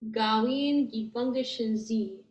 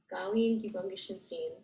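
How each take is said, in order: First: The final syllable is a buzzing z, no n. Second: The final syllable is a buzzing z with n. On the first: "that S is going to turn into a Z, and the N, the sound kind of falls off" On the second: "or some people Gawin gi bungishin Zin"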